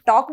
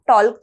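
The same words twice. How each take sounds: First: टॉक with a silent L, just tawk; right pronunciation. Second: टॉल्क with the L sounded out, the wrong way; wrong pronunciation. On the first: Teacher showing students the correct way, टॉक without the L. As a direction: say टॉक with no L sound at all. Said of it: "टॉक बोलते हैं". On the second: Teacher showing students the mistake, टॉल्क with a spoken L. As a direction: say टॉल्क, pronouncing the L clearly. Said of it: "टॉल्क तो नहीं बोलते हम". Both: Shown as a demonstration.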